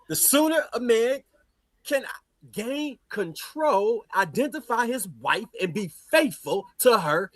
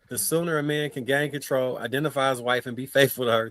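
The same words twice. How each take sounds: First: It is read in a put-on, imitated speaking voice. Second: It is read in the reader's own plain voice.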